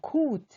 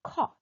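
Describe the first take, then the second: First: The vowel is a long 'oh' sound. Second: The vowel is open, with the jaw dropped. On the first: The speaker calls it wrong. "코트 하면 안 돼요. 그건 장모음입니다" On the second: The speaker calls it right. "턱이 아래로 떨어지면서 O와 오, 어의 중간 발음"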